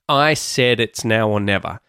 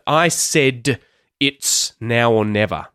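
First: The d in said is a quick flap. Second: The d in said is a full, hard stop. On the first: The speaker calls it right. "instead, we use that T flap" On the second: The speaker calls it wrong. "You kind of have to break it up and you sound a bit robotic"

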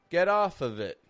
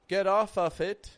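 First: 'Of' ends in a voiced v sound. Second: 'Of' ends in a voiceless f sound. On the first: The speaker calls it right. "We're giving it a little bit of voice" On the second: The speaker calls it wrong. "We're not making it off"

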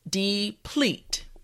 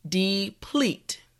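No difference in how they are said.

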